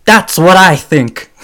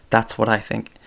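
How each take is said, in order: First: Loud slow yell, higher and louder; yelled catchphrase. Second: Said in the usual way. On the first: Retold or imitated. Imitating Andrew Dice Clay yelling his closing line, loud and slow. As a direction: bellow it out slowly to end the opinion. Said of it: "Sorry for yelling". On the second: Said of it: "He ends it yelling".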